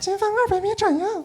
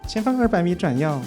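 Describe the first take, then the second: First: The voice starts at a higher pitch. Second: The voice starts at a lower pitch. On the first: "你声音先起高一点，高一点点。" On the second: "你可以再试着再夹一点"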